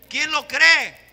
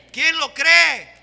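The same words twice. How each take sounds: First: Loud call to the congregation with ¿Quién lo cree? falling at the end; preaching call. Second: ¿Quién lo cree? shouted high and slow; fervent shout. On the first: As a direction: ask ¿Quién lo cree? loudly at a normal pace. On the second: Preacher repeats, stronger. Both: Real, not acted.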